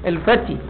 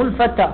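First: الفتي ending in a long "ee", al-fatee; corrected word form. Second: الفتى ending in an open long "aa", al-fataa; wrong word form. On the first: Teacher giving the correct term, الفتي said with final "ee". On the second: Teacher rejecting a misreading, الفتى said with final "aa". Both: Shown as a demonstration. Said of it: "ترى هذا مو الفتى".

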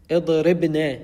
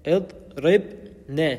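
First: Said in the usual way. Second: اضربن split slowly before the final ne; sukun shown. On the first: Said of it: "اضربن ساكن". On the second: Shown as a demonstration. Teacher shows pupils the silent ba in اضربن, split slowly. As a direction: break اضربن into "idrib... ne", closing on the b. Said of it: "ساكن، الباء ساكنة".

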